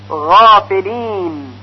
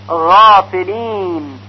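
The two takes are said the same way.

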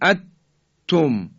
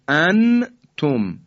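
First: The n disappears completely into the t. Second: The n is pronounced fully and clearly. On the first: "اینم که دیگه حالت ادغامه و صحیح نیست" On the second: "ما نمیگیم انتم، این اظهاره"

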